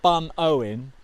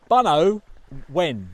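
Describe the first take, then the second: First: The name is split as Bun-owen. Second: The name is split as Buno-wen. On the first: The speaker calls it wrong. "not Bun Owen, which we were calling it first of all" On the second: The speaker calls it right. "It's Buno Wen"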